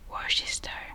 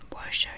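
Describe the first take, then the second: First: It is said with every written letter sounded. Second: It is said in the standard, shortened way. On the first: "I would pronounce it like Worcester ... because that's literally how it's spelled" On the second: "So that's the correct pronunciation"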